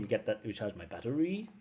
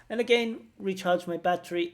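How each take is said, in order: First: "recharge my battery" with a rise on "battery"; rising tune on "recharge my battery"; rising intonation. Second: "recharge my battery" much higher and louder, punched "recharge"; emphatic model. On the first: Retold or imitated. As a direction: lift the tune up at the end on "battery". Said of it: "the higher rising intonation". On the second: Shown as a demonstration. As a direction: demonstrate it high and strong. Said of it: "It's suitable here".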